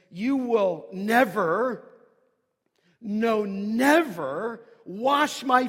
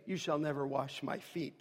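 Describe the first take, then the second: First: Slow, loud, stress on each "never"; double negative stressed. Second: Said in the usual way. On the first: Shown as a demonstration. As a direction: drag out "You will never, no, never wash my feet", punching each "never". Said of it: "He says". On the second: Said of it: "you can just read it kindly".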